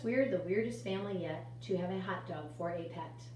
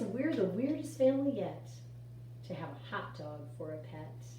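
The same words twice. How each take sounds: First: It is read in a flat, expressionless monotone. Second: It is read with lively, varied expression. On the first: The speaker calls it wrong. "they talk just like that. ... They don't have any expression" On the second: The speaker calls it right. "our new improved poetry person"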